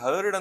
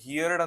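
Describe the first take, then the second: First: The vowel sounds like 'hurd'. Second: The vowel sounds like 'here-d'. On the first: The speaker calls it right. "ಹರ್ಡ್ ಅಂತ pronounce ಮಾಡಬೇಕು" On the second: The speaker calls it wrong. "ಕೆಲವರು ಇದನ್ನ ಹಿಯರ್ಡ್ ಅಂತ ಹೇಳ್ತಾರೆ, ಇದು ತಪ್ಪು"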